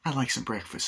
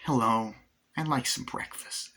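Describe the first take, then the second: First: Lightly voiced customer; milder retake of the order; redone, less Nicholson. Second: Jack Nicholson impression. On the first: Customer ordering breakfast again, lightly voiced. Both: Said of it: "that was more like Jack Nicholson".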